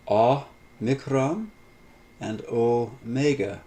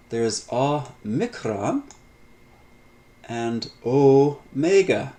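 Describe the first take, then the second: First: Deliberate, slowed model pronunciation; slow repeat demo. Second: Omicron with a short "ah-mi-kron", omega slow and louder as "oh-may-ga"; slow teacher demo, omega stressed; vowel demo. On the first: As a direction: repeat the pair slowly for students to copy. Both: Shown as a demonstration. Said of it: "the very names, uh, give us the Greek equivalent".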